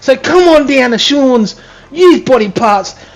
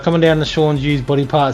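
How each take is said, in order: First: It is said in a put-on advertising voice. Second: It is said in his normal voice.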